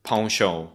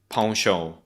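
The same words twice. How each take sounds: First: It is said with the British pronunciation. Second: The same.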